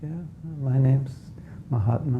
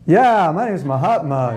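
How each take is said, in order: First: It is said in a quiet, low-key way. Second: It is said in a lively, outgoing way.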